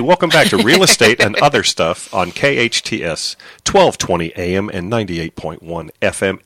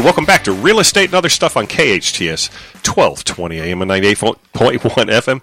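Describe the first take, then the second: First: The phrase is said slowly. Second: The phrase is said quickly. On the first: The speaker calls it right. "how about if I say it slower?" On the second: The speaker calls it wrong. "It's hard to say fast"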